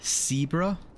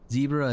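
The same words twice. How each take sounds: First: The word begins with a hissing S sound. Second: The word begins with a buzzing Z sound. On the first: "zipper is sipper" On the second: "I pronounce Z as an S"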